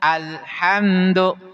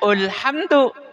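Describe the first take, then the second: First: The word begins with an a vowel. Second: The word begins with a u vowel. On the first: The speaker calls it right. "hamzah wasol dibaca fa fathah ketika bertemu dengan lam ta'rif" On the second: The speaker calls it wrong. "Jangan dibaca ulhamdu"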